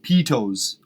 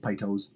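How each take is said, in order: First: The first syllable does not sound like 'pie'. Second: The first syllable sounds like 'pie'. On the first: "would be with a Y" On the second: "Like pie toes"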